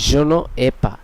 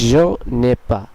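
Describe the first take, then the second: First: The words ne and ai are kept separate. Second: The words ne and ai are joined together.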